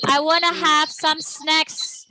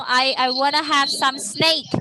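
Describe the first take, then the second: First: "snacks" said slowly with a short a, snaks; careful "snacks" with a short a and a final ks; correct snacks. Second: "snake" said as sneik with a long ei, the mistaken word; deliberately wrong "snake" with ei instead of a short a. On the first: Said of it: "Jangan sampai salah cara ngomongnya". (ucapan "snacks" yang benar, pelan, dengan a pendek) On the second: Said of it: "Terus kalau kita salah ngomong". (ucapan salah "snake" dengan bunyi ei) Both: Shown as a demonstration.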